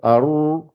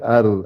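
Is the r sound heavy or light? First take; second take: heavy; light. First: The r is heavy and resonant, mouth hollowed. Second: The r is light, tongue tip near the teeth. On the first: "si on veut gonfler la lettre, on crée le vide dans la bouche pour que ça, fait, ça résonne" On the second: "lire la lettre avec légèreté normale"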